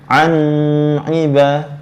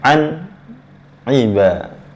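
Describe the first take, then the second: First: The n sound is drawn out long. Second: The n sound is kept short. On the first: The speaker calls it wrong. "Tak boleh macam ini" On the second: The speaker calls it right. "mesti pendek"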